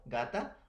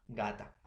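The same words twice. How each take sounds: First: "gata" lifting at the end like a list item; first take of "gata", rising. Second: "gata" falling low and softer to close; second take of "gata", falling, softer. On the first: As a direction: say "gata" with a rise, first of two. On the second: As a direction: say "gata" with a low final drop. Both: Shown as a demonstration. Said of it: "no hay que equivocarnos".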